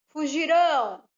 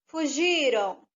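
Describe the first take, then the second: First: The stress is on the last syllable. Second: The stress is on the middle syllable. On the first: The action will happen in the future. "a sílaba tônica está no rão" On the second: The action already happened. "Está no G, a sílaba tônica"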